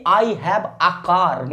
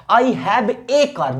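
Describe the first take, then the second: First: "a" said as "aa" in I have a car; wrong unemphatic article. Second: "a" said as a full "ay" in I have a car, very slowly; emphatic article. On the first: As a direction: show "a" as a plain "aa" before car. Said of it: "इसको ऐसे नहीं बोलेंगे". ("a" का बिना दबाव "आ" उच्चारण) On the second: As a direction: slowly stress "a" as "ay" before car. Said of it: "वाक्य को दबाव देना हो". ("a" पर दबाव देकर धीमे "ए" उच्चारण) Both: Shown as a demonstration.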